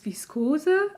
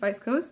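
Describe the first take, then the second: First: It is pronounced with German sounds. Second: It is pronounced with English sounds. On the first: "In German it's Viskose" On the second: "I think it's viscose"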